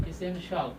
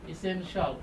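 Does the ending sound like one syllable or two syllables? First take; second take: one syllable; one syllable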